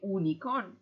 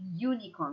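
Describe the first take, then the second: First: It begins with a plain vowel, no y sound. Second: It begins with a y sound before the vowel. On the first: The speaker calls it wrong. "We don't say unicorn" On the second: The speaker calls it right. "but we say unicorn. We have the U, the Y sound"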